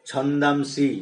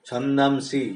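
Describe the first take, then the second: No difference in how they are said.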